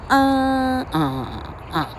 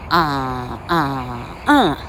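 First: The first syllable is the highest in pitch. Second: The third syllable is the highest in pitch.

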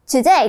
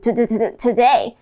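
First: The word is said smoothly in one go. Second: The first sound is repeated in a stutter. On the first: "today 可能就会变成today" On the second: "可能就会变成today"

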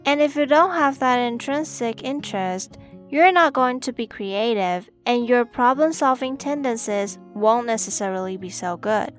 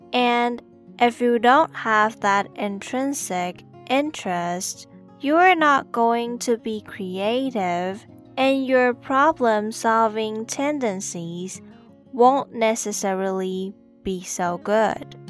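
First: It is said at normal speed. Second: It is said slowly.

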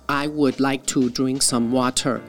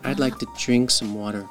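First: Each word is said fully and separately. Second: The words run together with a light, reduced 'to'. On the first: It sounds robotic and like a command. The speaker calls it wrong. "这样会听起来很好像 机器人在讲话" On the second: It sounds comfortable and pleasant to the listener. The speaker calls it right. "所以那个to 可以念得很轻。"

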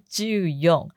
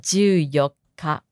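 First: Fourteen is read ending in yon. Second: Fourteen is read ending in yokka. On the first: The speaker calls it wrong. "也不是就用" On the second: The speaker calls it right. "是就有卡，要注意哈"

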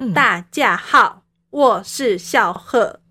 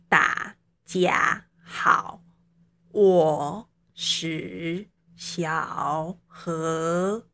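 First: Every syllable falls sharply from high to low. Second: Every syllable dips low and then rises. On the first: "那再来我们讲四声国咯" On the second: "三声国讲话好累哦"

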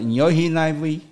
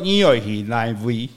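First: It is said in the lighter Sixian Hakka accent. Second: It is said in the Hailu Hakka accent.

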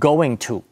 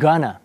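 First: Going and to are said as separate full words. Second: Going and to are blended into one reduced word.

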